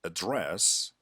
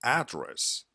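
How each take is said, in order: First: "address" said uh-DRESS, end-stressed; stress on second syllable. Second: "Address" said AD-dress, front-stressed; stress on first syllable. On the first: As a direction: lean on the last syllable of "address". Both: Shown as a demonstration. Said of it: "placing the stress on the wrong syllable".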